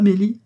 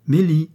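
First: Name rising high and loud; questioning call. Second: High, loud call with a falling end. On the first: Mistress wondering where the maid's coffee is, questioning call. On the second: Mistress summoning the maid from the vestibule, calling out. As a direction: call the name through the house. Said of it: "pour aller appeler dans le vestibule". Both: A narrator's reading.

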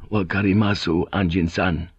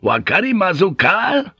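First: Subdued, even acknowledgement; submissive assent. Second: Loud, high, forceful question; shouted demand. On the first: Samurai backing down before the pilot, submissive assent. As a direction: give in respectfully, without force. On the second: Pilot kicking the door open before samurai, shouted demand. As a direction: bellow it as an ultimatum. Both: Acted.

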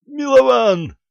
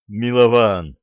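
First: High, drawn-out shout of a name; sudden high yell; urgent cry. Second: Gruff warning. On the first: Acted. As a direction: cry out the name, pitched way up and loud. Pensioner cries out to comrade. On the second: A narrator's reading. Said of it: "набычился пожилой человек".

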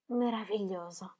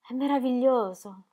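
First: Soft dreamy echo. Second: Said in the usual way. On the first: Acted. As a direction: repeat "meraviglioso" softer, fading out. ("meraviglioso" ripetuto piano, in dissolvenza) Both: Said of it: "trattenne un profondo respiro".

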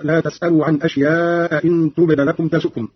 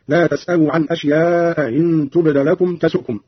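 First: Said in the usual way. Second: أشياء إن with the hamza of إن eased toward a y; softened second hamza. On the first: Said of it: "بتسهيل الهمزة الثانية". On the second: Shown as a demonstration. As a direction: glide from أشياء into إن without a full glottal stop. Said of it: "قرأ قالون بتسهيل الهمزة الثانية".

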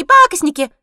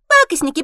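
First: Higher, louder shrill jeer; louder squeaky cackling taunt. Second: High, loud squeaky jeer; mock them, shrill and gleeful; squeaky cackling taunt. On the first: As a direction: jeer again even louder. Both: A narrator's reading. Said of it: "заливается серокрылая".

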